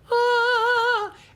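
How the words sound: A high, light head voice. "head voice way up high"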